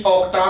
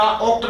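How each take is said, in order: First: ऑक्टा ending in an open "taa"; added final A. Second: Said in the usual way. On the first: Shown as a demonstration. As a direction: sound the last vowel of ऑक्टा, ok-taa. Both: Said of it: "ऑक्ट नहीं".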